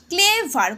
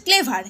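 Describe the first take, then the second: First: ক্লেভার stretched into two syllables, cle-ver; ক্লেভার drawn out to show its two syllables. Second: Said in the usual way. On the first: Shown as a demonstration. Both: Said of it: "কটা syllable আছে".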